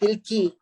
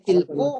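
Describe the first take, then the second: First: The word ends in an i vowel. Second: The word ends in an u vowel. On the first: "Nggak boleh tilki" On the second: "Nggak boleh tilku"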